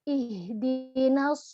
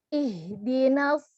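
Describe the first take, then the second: First: The heavy sound is made with rounded lips. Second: The heavy sound is made without lip rounding. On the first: The speaker calls it wrong. "kita buat-buat aja dengan merubah posisi bibir" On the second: The speaker calls it right. "dengan mengangkat pangkal lidah kita"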